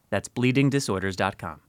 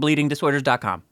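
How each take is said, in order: First: It is said a little more slowly. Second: It is said at normal speed.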